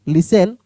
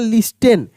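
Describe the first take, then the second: First: No 't' sound is pronounced mid-word. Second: A clear 't' sound is pronounced mid-word. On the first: The speaker calls it right. "लिसन पढ़ देंगे. ठीक है ना?" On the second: The speaker calls it wrong. "लिस्टेन पढ़ देते हैं बहुत सारे लोग"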